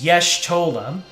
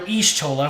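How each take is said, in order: First: The name begins with a 'yesh' sound. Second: The name begins with an 'ish' sound. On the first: The speaker calls it right. "the proper pronunciation is Yesh-Tola. Like the word yes mispronounced, then Tola" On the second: The speaker calls it wrong. "I was calling her Ish-Tola for the longest time. Shame on me"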